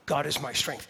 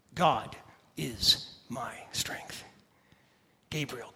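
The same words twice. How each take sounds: First: Said in the usual way. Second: Hushed whisper, slow and low. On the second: Acted. Whispered name meaning.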